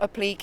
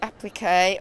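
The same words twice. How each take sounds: First: It is said the British way. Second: It is said the American way.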